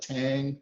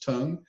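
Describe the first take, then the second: First: The vowel sounds like the one in 'cat'. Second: The vowel sounds like the one in 'cup'. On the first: The speaker calls it wrong. "I hear a lot of people call it a tang" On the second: The speaker calls it right. "it's a Dutch term and the pronunciation is tongue"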